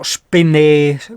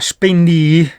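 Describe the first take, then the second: First: The word ends with an 'eh' vowel sound. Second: The word ends with an 'ee' vowel sound. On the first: "in dialetto veneto" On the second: "si chiama"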